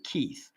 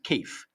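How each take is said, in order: First: The name is said in a plain accent. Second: The name is said in a Cockney accent. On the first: The speaker calls it wrong. "You don't say Keith" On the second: The speaker calls it right. "you got to get the the the appropriate Cockney accent"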